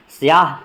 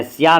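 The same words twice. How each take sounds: First: स्याह ending in an audible h; sounded final h. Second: स्या ending on a bare vowel; dropped final h. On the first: Teacher showing the right form, 'siyaah' with final h. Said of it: "बोलते हैं". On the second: Teacher showing the rejected form, 'siyaa' without h. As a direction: say स्या with no h at the end. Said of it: "स्या नहीं बोलते हैं". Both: Shown as a demonstration.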